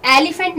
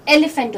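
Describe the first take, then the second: First: "एलिफेंट" as AL-i-fant, broad a first; wrong "एलिफेंट": AL-ee-fent; mispronounced elephant. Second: "एलिफेंट" with short e vowels: EH-le-fent; right "एलिफेंट": EL-uh-fent; correct elephant. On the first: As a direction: show the wrong "एलिफेंट" with an ee in the middle. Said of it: "एलिफेंट नहीं होता". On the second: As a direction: model "एलिफेंट" with a short eh, then le. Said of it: "ये एलिफेंट होता है". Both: Shown as a demonstration.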